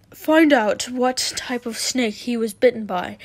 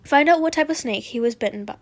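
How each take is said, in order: First: Mildly flustered, louder reading. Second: Said in the usual way. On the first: Acted. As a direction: read it as if a little rattled. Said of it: "I'll do a flustered voice".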